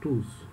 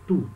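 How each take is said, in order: First: The final s sound is pronounced. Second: The final s sound is silent. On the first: It stands alone with no noun after it. "o S vai ter som" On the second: It means each and a noun follows it. "o S não vai ter som"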